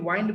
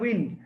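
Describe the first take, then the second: First: The vowel is a long 'eye' sound. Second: The vowel is a short 'i' sound. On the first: The speaker calls it wrong. "উইন্ডকে ওয়াইন্ড বলতেছো" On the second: The speaker calls it right. "উচ্চারণগুলো একটু খেয়াল করো।"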